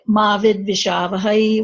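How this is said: Ma runs straight into the following word. "where it's it kind of goes in with the rest of it"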